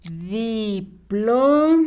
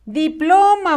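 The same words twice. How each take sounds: First: Diploma very slow, di... plo... ma; syllable-by-syllable dictation. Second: Said in the usual way. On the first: Shown as a demonstration. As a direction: break Diploma into long held syllables. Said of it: "A ver, escribimos". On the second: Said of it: "La sílaba plo va con rojo".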